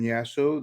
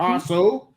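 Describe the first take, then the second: First: The name begins with a Y sound. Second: The name begins with an H sound. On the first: The speaker calls it wrong. "Did I pronounce that right" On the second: The speaker calls it right. "That we learn how to s- pronounce your name properly"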